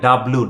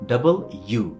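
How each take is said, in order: First: The letter name is clipped into one short word. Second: The letter name is said in full, double then u. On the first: The speaker calls it wrong. "এটার উচ্চারণ আমরা ভুল করি, আমরা বলি ডাব্লু" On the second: The speaker calls it right. "সেটা হচ্ছে কি ডাবল ইউ"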